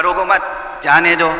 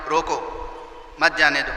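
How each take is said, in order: First: روکو مت joined, pause, then جانے دو; pause after مت. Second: روکو on its own, pause, then مت جانے دو together; pause after روکو. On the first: Master telling his servant to let a guest go, pause after مت. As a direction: break right after مت, setting جانے دو apart. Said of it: "ارادہ الگ الگ تھا". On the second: Master ordering his servant to stop a guest, pause after روکو. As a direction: break right after روکو, joining مت to جانے دو. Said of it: "جملہ تو ایک ہی تھا". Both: Shown as a demonstration.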